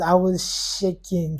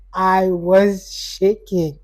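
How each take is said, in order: First: Said in the usual way. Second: "I was shaking" drawn out very slowly; "shaking" slowed right down for emphasis; emphatic repeat. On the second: Real, not acted. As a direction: stretch each word of "I was shaking".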